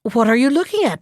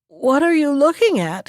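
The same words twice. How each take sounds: First: Said in the usual way. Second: Higher-pitched, mildly anxious question; trembling. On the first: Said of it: "asked the magpie". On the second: A narrator's reading. Magpie spots the fox under his tree, trembling question. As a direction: ask with a touch of dread. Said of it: "he asked in a trembling voice".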